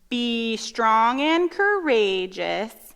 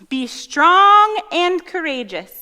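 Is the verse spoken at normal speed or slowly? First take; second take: slowly; normal. First: It is spoken slowly. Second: It is spoken at a normal speed.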